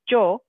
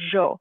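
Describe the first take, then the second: First: The word begins with a hard j sound. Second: The word begins with a soft zh sound. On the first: "a harder sound, like more like a j, like a j sound" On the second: "a softer kind of zh sound"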